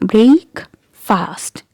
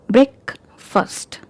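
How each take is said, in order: First: It is two separate words with full vowels. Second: It is one joined word with changed vowels. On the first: "When we had these two words separated, the pronunciation was different" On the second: "when we joined these words to have another word, the pronunciation changed"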